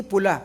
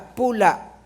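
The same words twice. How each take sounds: First: Pula said the first, wrong way before the correction; the wrong reading of pula, set against the right one. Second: Pula said the right way, a touch louder and stressed; the corrected pula, pressed firmly. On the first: Preacher gives the wrong reading of pula to his congregation. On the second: Preacher corrects himself on pula to the congregation, firmly. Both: Shown as a demonstration. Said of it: "Hindi pula, pula".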